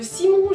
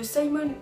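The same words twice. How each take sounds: First: The name is said with a French accent. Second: The name is said with an English accent. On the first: "alors que c'est un français" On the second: "Je suis en train de le prononcer à l'anglaise"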